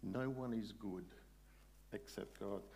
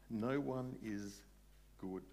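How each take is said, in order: First: Said in the usual way. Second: Each word set down slowly; slow, emphatic repetition; slow, weighty. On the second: Real, not acted. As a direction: let it sink in, word by word. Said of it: "worth thinking about".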